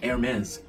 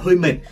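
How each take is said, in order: First: The name begins without an 'h' sound. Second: The name begins with an 'h' sound. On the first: The speaker calls it right. "hãng này nó không đọc chữ hờ" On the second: The speaker calls it wrong. "hay đọc hãng này là hơi mệt"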